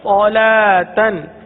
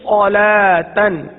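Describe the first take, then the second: The two takes are said the same way.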